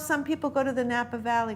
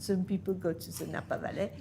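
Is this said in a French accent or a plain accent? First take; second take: plain; French. First: It is said in the speaker's ordinary accent. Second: It is said with an imitated French accent.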